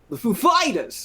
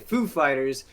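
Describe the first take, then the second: First: The stress is on Fighters. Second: The stress is on Foo.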